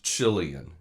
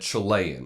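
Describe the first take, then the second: First: The word is said in a plain English way. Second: The word is said in a Spanish-sounding way. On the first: The speaker calls it right. "they mispronounced Chilean" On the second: The speaker calls it wrong. "said Chilean. I think it was an affectation to sound Spanish"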